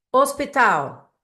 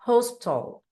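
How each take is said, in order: First: Hospital said the Portuguese way, silent h, os-pee-TAL; Hospital with no h sound and stress on the last syllable, tal; Hospital as a Brazilian says it; Portuguese pronunciation. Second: Hospital with a breathy h and stress on the first syllable, HOS-pital; Hospital said the English way, HOS-pi-tl, with a clipped ending; Hospital in English, h sounded; English pronunciation. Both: Shown as a demonstration. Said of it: "você tem que lembrar totalmente em inglês".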